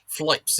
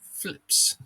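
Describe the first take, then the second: First: The vowel is a long 'eye' sound. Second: The vowel is a short 'i' sound. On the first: This is how another person says it. The speaker calls it wrong. "Flipes instead of flips" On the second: This is the usual way to say it. The speaker calls it right. "instead of flips"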